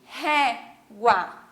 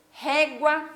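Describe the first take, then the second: First: "régua" split RÉ, GUA with a pause; stress on RÉ. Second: Said in the usual way. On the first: Shown as a demonstration. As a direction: separate "régua" in two beats, marking RÉ. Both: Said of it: "essa é a minha sílaba tônica".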